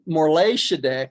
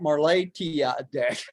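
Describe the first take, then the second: First: The middle syllable has a 'sh' sound. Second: The middle syllable has a 't' sound. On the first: The speaker calls it right. "The T I A is Sha" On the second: The speaker calls it wrong. "it's not Morletiadek"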